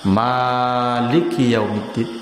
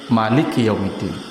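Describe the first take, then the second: First: The first vowel of Maliki is drawn out long. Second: The first vowel of Maliki is kept short. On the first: God is the owner of the Day of Judgment. "Boleh bacanya panjang" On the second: God is the king of the Day of Judgment. "Boleh bacaannya pendek"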